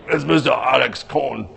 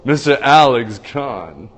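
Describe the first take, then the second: First: Light impression of how "Mister Alex Kahn" really says it; imitating Alex Kahn. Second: Slow, stretched announcer call of "Mister Alex Kahn"; announcer intro. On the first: Host showing how the guest really talks, a bad light impression. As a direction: do the guest's own voice, "Mister" leading. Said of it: "He doesn't talk like that. He's more like". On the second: Pretend. Host repeating the guest's name as a hammed-up announcer. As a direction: drag out "Alex" like a ring announcer, rising at the end. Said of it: "Mister Al-, did you like that?".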